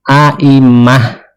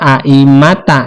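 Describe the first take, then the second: First: The word ends with a breathy h sound. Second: The word ends with a t and a vowel. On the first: The speaker calls it right. "di sini dibacanya aimah ya, di dibawa ke hak" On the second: The speaker calls it wrong. "jangan dibaca aimata"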